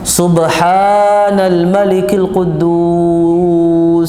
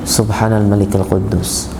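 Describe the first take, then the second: First: It is said loudly and drawn out. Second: It is said softly and kept short. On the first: "Dikeraskan dan dipanjangkan" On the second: "Yang pertama kedua dibaca pendek dan dan dan tidak keras"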